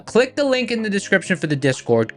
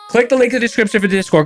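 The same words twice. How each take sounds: First: It is said at a normal speed. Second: It is said very fast.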